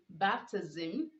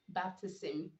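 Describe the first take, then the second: First: The s is sounded as z. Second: The s is sounded as s. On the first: The speaker calls it right. "you ought to pronounce the S, making the Z sound" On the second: The speaker calls it wrong. "not baptism"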